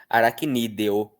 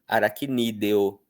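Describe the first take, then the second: No difference in how they are said.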